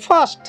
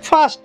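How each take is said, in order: No difference in how they are said.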